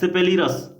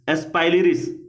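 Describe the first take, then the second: First: The name is said as si-pe-li-ras. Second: The name is said as es-pai-li-ris. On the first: "Hindi में सिपेलिरस लिखा गया है" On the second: "और English में"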